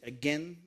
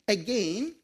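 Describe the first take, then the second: First: It is pronounced with an American accent. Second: It is pronounced with a Canadian accent. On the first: "should I say" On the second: "I think I'm being Canadian there"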